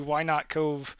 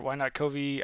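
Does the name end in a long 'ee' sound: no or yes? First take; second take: no; yes. First: The name ends without an 'ee' sound. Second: The name ends with a long 'ee' sound. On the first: "I've always pronounced it Cove" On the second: "or Why Not Covey"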